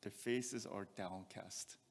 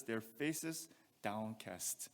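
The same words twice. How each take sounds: First: "Their faces are downcast" drawn out and soft; slow and heavy. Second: "Their faces downcast" slow and softer, sinking at the end; slow and heavy. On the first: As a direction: dwell on "downcast" with low spirit. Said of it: "Downcast means low in spirit". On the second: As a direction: let "downcast" sink slowly. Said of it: "look at what he says". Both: Shown as a demonstration.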